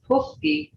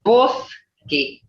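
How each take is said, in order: First: Puski with an aspirated P; wrong English P. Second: Boski with an unpuffed B-like first sound; Creek pronunciation. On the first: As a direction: puff the P in Puski. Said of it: "We don't have". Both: Shown as a demonstration.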